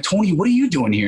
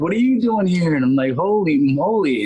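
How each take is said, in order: First: Put-on higher-pitched happy disbelief at an old friend; retold surprised exclamation; surprised greeting. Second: High, swooping excited disbelief; retold squeal of delighted surprise; amazed reunion. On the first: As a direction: act out bumping into a childhood pal. Running into childhood friend at audition. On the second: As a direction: draw it out, astonished to see your old friend.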